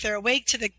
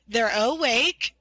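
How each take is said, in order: First: Said in the usual way. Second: Awake slow and drawn out; stress on awake. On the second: Shown as a demonstration. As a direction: lean slowly into the word awake. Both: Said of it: "not woke".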